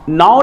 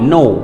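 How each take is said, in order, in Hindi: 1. स्वर 'now' में 'ow' की तरह बोला जाता है। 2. स्वर 'no' में 'oh' की तरह बोला जाता है। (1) "नाउ नहीं" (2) "डायरेक्टली नो"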